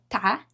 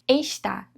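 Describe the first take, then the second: First: The word is cut to one short syllable. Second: The word is said in full, with two syllables. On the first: "Está vira tá" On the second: "Está vira tá"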